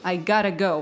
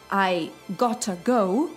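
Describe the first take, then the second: First: The t in gotta is a soft flap. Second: The t in gotta is a clear t. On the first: "вот это такое да-да-да" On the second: "вместо"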